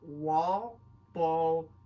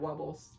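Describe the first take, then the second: First: Both words are said slowly and separately. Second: The words are said fast and merged together. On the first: "this is a word that I have a hard time pronouncing" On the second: "when I say it really quickly"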